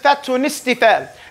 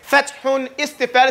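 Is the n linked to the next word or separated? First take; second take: linked; separated. First: The n carries over into the next word. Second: The n ends the first word separately. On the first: "the tanween goes into the next letter" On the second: "Instead of saying fathun istifal"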